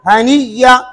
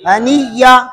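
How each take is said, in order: First: A doubled y sound replaces the glottal stop. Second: A doubled y sound replaces the glottal stop.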